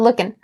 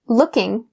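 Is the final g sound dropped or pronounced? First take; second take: dropped; pronounced. First: The final g sound is dropped. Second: The final g sound is pronounced. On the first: "we drop that g sound at the end of looking and just say lookin'" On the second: "change, in this case, looking to lookin'"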